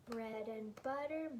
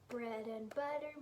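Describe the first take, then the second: The two takes are said the same way.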